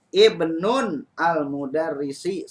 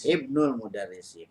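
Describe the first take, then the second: First: The first word ends in -nun before al-. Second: The first word ends in -nul, linked directly. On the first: The speaker calls it wrong. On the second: The speaker calls it right. "bagian yang pertama tanpa alif lam tanpa tanwin"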